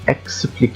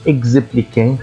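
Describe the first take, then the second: First: The x is sounded as ks. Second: The x is sounded as gz. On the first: The speaker calls it right. "ينطق آآ كأست إذا جاء قبله آآ أو بعده حرف ساكن" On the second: The speaker calls it wrong. "ما قُلتش expliquer خطأ"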